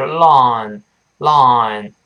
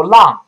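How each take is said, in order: First: Slow "long" with a drawn-out open O; "long" modelled slowly, lengthened into the final NG; correct long. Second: Short open "long", like Mandarin lang; "long" cut short with an AH vowel; mispronounced long. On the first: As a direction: stretch the vowel of "long" twice. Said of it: "是long，long". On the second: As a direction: demonstrate the wrong loud, short "long". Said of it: "不要读long啊". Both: Shown as a demonstration.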